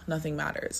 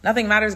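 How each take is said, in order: First: It sounds defeated and hopeless. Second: It sounds excited and carefree.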